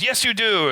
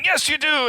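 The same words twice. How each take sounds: First: Said in the usual way. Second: Pitched way up, yelling back; hammed-up yell of yes you do; escalating mock shout. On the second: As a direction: push it higher than the last round. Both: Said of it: "they keep escalating it".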